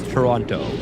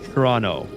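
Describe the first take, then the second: First: The last t sound is clearly pronounced. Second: The last t sound is dropped. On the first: The speaker is not a local. The speaker calls it wrong. "If you pronounce the T at the end, you're not a local" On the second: The speaker is a local. The speaker calls it right. "you don't pronounce the last T. It's Toronto. Like it's like it's like this"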